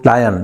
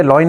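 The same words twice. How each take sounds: First: "lion" as LAI-un, long i first; correct pronunciation. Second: "लॉइन" said as "loin"; wrong pronunciation. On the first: Teacher modelling English for students, "lion" said correctly as LAI-un. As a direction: say "lion" with an "eye" vowel, falling. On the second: Teacher warning students off a mistake, "लॉइन" pronounced like "loin". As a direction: say "लॉइन" with an oy vowel, LOY-n. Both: Shown as a demonstration. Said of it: "लॉइन नहीं बोलोगे".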